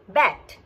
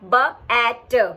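First: The sounds are blended into one smooth word. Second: The sounds are split apart with a pause. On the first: The speaker calls it right. "it becomes B at, bat" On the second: The speaker calls it wrong. "we don't say it B at"

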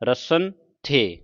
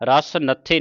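First: The n sound ends the first word. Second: The n sound starts the second word. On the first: The speaker calls it right. "ਨੰਨਾ ਸੱਸੇ ਨਾਲ ਲਾ ਕੇ" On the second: The speaker calls it wrong. "ਰਸ ਨੱਥੇ ਨਹੀਂ ਪੜ੍ਹਨਾ"

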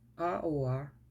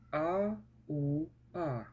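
First: The sounds are read quickly, run together. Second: The sounds are read slowly, one at a time. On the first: "А тепер швидше" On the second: "Читаємо так"

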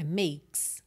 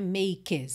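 First: The k runs straight into the s. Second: A vowel sound is heard between k and s. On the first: The speaker calls it right. "K S direto" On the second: The speaker calls it wrong. "o é de makes não é pronunciado"

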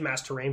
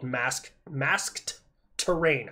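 First: The end of 'masked' is dropped. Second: The end of 'masked' is clearly pronounced. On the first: "I just say mass terrain" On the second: "I have to enunciate a little bit"

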